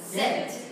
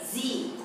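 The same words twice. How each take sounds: First: The letter name is said the British way. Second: The letter name is said the American way. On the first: "영국식 이름으로는 Z라고 해요" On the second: "미국식으로는 이름이 Z예요"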